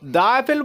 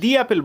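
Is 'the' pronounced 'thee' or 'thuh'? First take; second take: thuh; thee. First: 'The' is said with a short 'uh' vowel. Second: 'The' is said with a long 'ee' vowel. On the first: The speaker calls it wrong. "দা Apple বলবো" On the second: The speaker calls it right. "দি Apple বলবো"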